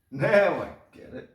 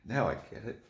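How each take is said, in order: First: High, loud exclamation of getting it; sudden loud eureka, much higher; excited realization. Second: Said in the usual way. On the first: Real, not acted. Repeats realization, second louder.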